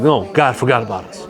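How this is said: It is said as a sincere statement.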